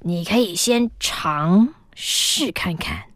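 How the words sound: It is said imitating the old man's voice.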